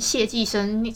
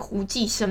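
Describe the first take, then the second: First: The first syllable is pronounced xiè. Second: The first syllable is pronounced hú. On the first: The speaker calls it wrong. "不是念谢寄生" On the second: The speaker calls it right. "是念胡寄生"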